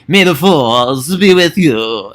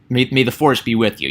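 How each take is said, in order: First: It is said campily and not seriously. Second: It is said plainly and sincerely.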